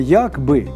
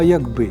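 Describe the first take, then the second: First: The stress is on the first syllable. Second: The stress is on the second syllable. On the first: It means 'as if'. The speaker calls it wrong. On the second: It means 'if'. The speaker calls it right.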